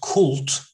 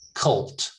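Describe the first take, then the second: First: The vowel is a full vowel. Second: The vowel is a reduced schwa. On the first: The speaker calls it wrong. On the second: The speaker calls it right.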